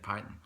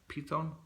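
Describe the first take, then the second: First: The word is pronounced the English way. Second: The word is pronounced the Italian way. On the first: "Python in English" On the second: "the Italians could spell it like Python"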